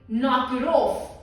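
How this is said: It is said in a soft, nice tone. The other person will ignore it. The speaker calls it wrong. "If you say it nicely"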